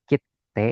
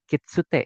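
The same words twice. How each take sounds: First: "kite" with a doubled t, kit, stop, te; small-tsu reading. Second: "kitsute" in three syllables, ki-tsu-te; full tsu reading. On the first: Teacher reads small tsu word for stamp, doubled t. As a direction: hold the t in "kite" without any tsu. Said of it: "su-nya kecil nih". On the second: Teacher contrasts big tsu with small, fully sounded tsu. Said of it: "su-nya besar". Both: Shown as a demonstration.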